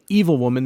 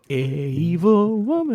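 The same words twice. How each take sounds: First: Evil is said normally with two syllables. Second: Evil is stretched with an added extra syllable. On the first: "Instead of saying evil woman" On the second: "they add that weird extra syllable"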